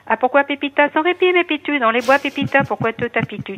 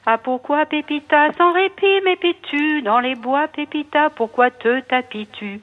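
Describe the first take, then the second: First: It is said very fast. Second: It is said very slowly.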